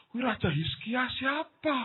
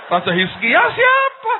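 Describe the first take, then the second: First: High, softer, slow question; mock puzzlement. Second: Loud, very high, drawn-out question; mock bewildered outcry. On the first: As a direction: wonder aloud in a drawn-out high voice. Pura-pura bingung soal Raja Hizkia. (pura-pura bingung, pelan bernada tinggi) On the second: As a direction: cry out the question in exaggerated confusion. Mengulang kebingungan dengan lebih keras. (seruan bingung yang keras dan melengking)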